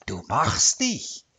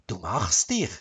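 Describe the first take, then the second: First: "Du machst dich" drawn out slowly with weight on "dich"; emphatic praise. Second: Low grudging grumble, rising on "dich"; grumbled praise. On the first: Wife repeats praise to her husband, slow and emphatic. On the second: Wife grudgingly praises her husband's cooking, grumbled. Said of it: "brummte sie". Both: A narrator's reading.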